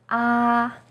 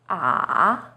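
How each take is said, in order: First: The pitch stays high and level throughout. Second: The pitch starts low, dips, then rises. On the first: "is high and steady" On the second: "is even lower. It first dips down, then rises"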